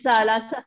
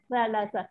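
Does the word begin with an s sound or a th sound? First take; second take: s; th. First: It begins with a plain s sound. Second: It begins with a th sound, tongue between teeth. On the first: The speaker calls it wrong. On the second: The speaker calls it right.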